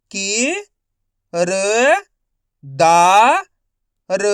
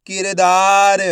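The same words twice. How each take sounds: First: कि, र, दा, र as separate stretched sounds; syllable by syllable. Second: किरदार joined up, loud and measured; किरदार in one unbroken, emphatic piece; blended whole word. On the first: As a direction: sound out किरदार one syllable at a time. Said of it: "एक अक्षर का उच्चारण करके". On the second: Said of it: "तो मिलके बन जाएगा". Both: Shown as a demonstration.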